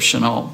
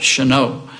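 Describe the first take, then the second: First: The name is said the usual, non-Louisiana way. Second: The name is said the Louisiana way. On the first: "instead of Chenault" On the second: "the people in Louisiana call it Chenault"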